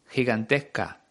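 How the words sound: The middle s is softened, Uruguayan style.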